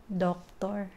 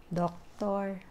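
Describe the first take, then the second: No difference in how they are said.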